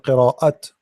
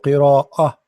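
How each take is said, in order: First: The word ends in a clear t sound. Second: The word ends in a soft h sound. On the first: The speaker calls it wrong. "I'm not saying qira'at" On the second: The speaker calls it right. "it's as if you are saying ha. Simply, it's a light T"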